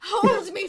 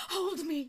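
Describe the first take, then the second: First: Loud, high melodramatic plea; urgent plea. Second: Higher, restrained plea; pleading lady. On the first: Creature begging her partner to hold her, urgent loud plea. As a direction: beg louder and higher, desperate to be held. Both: Acted. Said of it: "she says".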